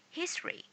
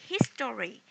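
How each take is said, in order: First: The word is said with two syllables. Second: The word is said with three syllables. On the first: The speaker calls it right. "just two syllable" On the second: The speaker calls it wrong. "that means you have three syllables"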